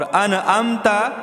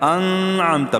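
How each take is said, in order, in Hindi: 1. n के बाद एक अतिरिक्त स्वर आता है। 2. n नासिका से और आंशिक रूप से छिपा हुआ है। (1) "ये अनअमता नहीं है, नून को नहीं हिलाएंगे" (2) "बाज़ लोग इसमें इख्फा करते हैं"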